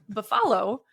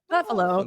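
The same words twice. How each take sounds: First: The stress is on the last syllable. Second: The stress is on the first syllable. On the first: "that will change the word" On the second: "I'm stressing that ba instead of flow"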